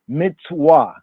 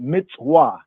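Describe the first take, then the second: First: It uses the ancient Semitic pronunciation. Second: It uses the ancient Semitic pronunciation.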